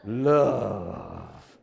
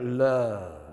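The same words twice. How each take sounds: First: Love dropped much lower, slow and romantic; romantic Italian. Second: Love dropped low and drawn out; low romantic. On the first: Congregation told to say Love like Italian, crooning. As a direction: purr Love like an Italian lover. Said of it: "Pretend you're Italian". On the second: Pastor demonstrates Love going down low. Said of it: "you gotta go down". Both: Shown as a demonstration.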